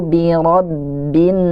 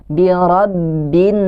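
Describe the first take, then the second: The two takes are said the same way.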